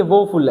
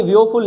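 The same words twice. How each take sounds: First: "वोफुल" as two syllables, vo-ful; "वोफुल", straight from v into o; corrected pronunciation. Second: "वियोफुल" with an extra "ee" glide after the v; "वियोफुल", wrongly read with three syllables; misspelt pronunciation. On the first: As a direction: say "वोफुल" with a plain long o, no glide. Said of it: "ये वोफुल है". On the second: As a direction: say "वियोफुल" as vi-yo-ful. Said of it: "अरे ये वियोफुल नहीं है". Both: Shown as a demonstration.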